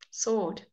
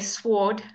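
First: The w after the s is silent. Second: The w after the s is sounded. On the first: The speaker calls it right. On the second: The speaker calls it wrong.

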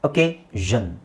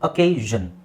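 The two takes are said the same way.

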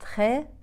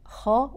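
First: The kh sound is light and thin. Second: The kh sound is heavy and full-mouthed. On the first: The speaker calls it wrong. "وليست خا" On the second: The speaker calls it right. "إذا مفخم هقول خاء، أقرأها خاء"

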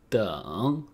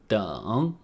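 No difference in how they are said.

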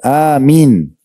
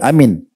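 First: The vowel after the m is held long. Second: The vowel after the m is cut short. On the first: The speaker calls it right. "mimnya dengan ya seperti satu kesatuan. Dipendekkan" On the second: The speaker calls it wrong. "setelah mim tidak ada panjangnya"

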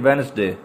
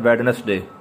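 First: No d sound is pronounced after the first vowel. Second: A d sound is pronounced after the first vowel. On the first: The speaker calls it right. "हम इसको पढ़ेंगे वेनसडे" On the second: The speaker calls it wrong. "दोस्त पढ़ते हैं वेडनसडे"

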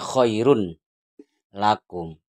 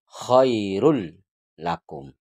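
First: The n sound is pronounced before the l. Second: The n merges into a doubled l sound. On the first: The speaker calls it wrong. "Tetapi ini tidak dibaca run" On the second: The speaker calls it right. "Langsung pada huruf lam"

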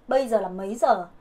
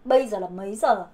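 The two takes are said the same way.

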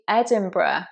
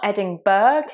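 First: The ending is not said as spelled. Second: The ending is said as it is spelled. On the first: The speaker calls it right. "it's actually Edinburgh" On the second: The speaker calls it wrong. "it's not Edinburgh, as it looks like"

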